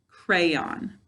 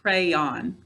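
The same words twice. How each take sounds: First: The stress is on the first syllable. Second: The stress is on the second syllable. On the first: The speaker calls it right. "first I'll put the stress on the first syllable" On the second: The speaker calls it wrong. "Now I'll put it on the second syllable"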